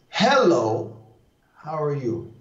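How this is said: The first word carries the strong stress. "That's accentuating the one"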